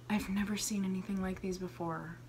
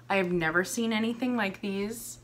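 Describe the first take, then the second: First: Fast, hushed whisper, much softer; awed whisper. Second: Said in the usual way. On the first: Real, not acted. Marvelling at earrings, whispering in awe. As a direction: whisper it like a secret treasure.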